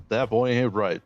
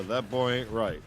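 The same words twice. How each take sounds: First: Shy, barely changed Hank Hill try; half-hearted go at the Hank voice; a hint of Hank Hill; Hank Hill attempt. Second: Mild Hank Hill drawl demo; louder coaching take of Hank Hill; Hank Hill line. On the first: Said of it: "Let's hear your Hank". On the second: Shown as a demonstration. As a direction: model the Hank line for him. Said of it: "Do a Hank".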